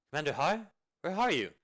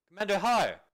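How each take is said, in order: First: Calling out. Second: Loud, high call with a falling end; impatient shout to find him; shouting a name. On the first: Searching, calling for someone. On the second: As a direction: yell his name across the camp. Calling louder, no answer. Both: Acted.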